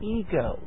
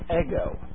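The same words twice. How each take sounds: First: The word is said with an English pronunciation. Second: The word is said with a Greek pronunciation. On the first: "But we would say ego" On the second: "in Greek it's pronounced ego"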